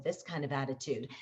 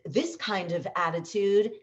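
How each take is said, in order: First: Lower, softer, quicker delivery; contrasting second-take attitude. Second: Upbeat attitude, rising at the end; lifted, emphatic delivery for the first take. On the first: Coach shows voice actors a different take, low-key. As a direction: drop it down, low-key and understated. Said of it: "all of a sudden you do one with this kind of attitude". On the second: Coach shows voice actors one take's attitude, upbeat. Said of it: "you do something, you know, with this kind of attitude". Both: Shown as a demonstration.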